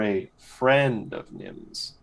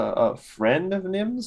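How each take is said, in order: First: It is said with marked emphasis. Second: It is said plainly, without special emphasis.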